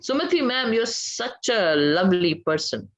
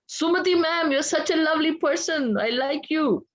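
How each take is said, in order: First: It is said flatly, without enthusiasm. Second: It is said warmly, with enthusiasm.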